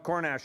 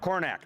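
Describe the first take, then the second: First: The name ends with an sh sound. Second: The name ends with a k sound. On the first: This is how locals nearby used to say it. The speaker calls it wrong. "we used to call it Cornash all the time" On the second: This is the proper name of the town. The speaker calls it right. "But no, Cornack"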